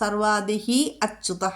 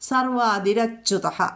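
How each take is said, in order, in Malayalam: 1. രണ്ട് വാക്കുകളും വേറെയാണ്, ഇടയിൽ ഒരു നിശ്വാസ ശബ്ദം. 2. രണ്ട് വാക്കുകളും r ശബ്ദത്തിലൂടെ ചേർന്നൊഴുകുന്നു.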